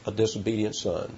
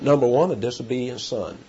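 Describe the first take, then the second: First: "A disobedient son" repeated much softer, falling away; quiet echo. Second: Said in the usual way. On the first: Shown as a demonstration. Preacher repeating his point softly so it sinks in, quietly. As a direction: let the repeat sink into a soft aside.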